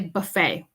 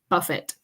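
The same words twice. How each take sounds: First: The final T is silent. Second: The final T is sounded. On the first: The speaker calls it right. "we don't pronounce the T with this word. We just say buffet" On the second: The speaker calls it wrong. "We don't say buffet"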